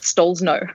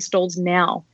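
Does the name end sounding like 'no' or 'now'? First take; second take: no; now. First: The last syllable sounds like the word 'no'. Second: The last syllable sounds like the word 'now'. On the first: This is the speaker's own pronunciation. "That's what I say" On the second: This is how other people say it. "Other people say Stalls now, which is much more positive"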